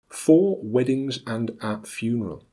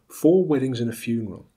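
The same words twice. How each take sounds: First: Every small word is said in full. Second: The small words are reduced with schwa. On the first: "as they are spelt" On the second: "as they are pronounced"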